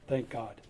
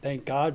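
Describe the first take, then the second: First: It is said plainly, as sincere thanks. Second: It is said as an emphatic exclamation.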